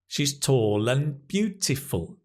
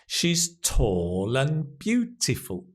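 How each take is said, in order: First: The sentence is spoken at normal speed. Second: The sentence is spoken slowly.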